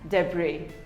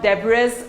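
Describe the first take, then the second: First: The final S sound is silent. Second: The final S sound is pronounced. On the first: The speaker calls it right. "The S is silent" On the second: The speaker calls it wrong. "It is not debris or debris"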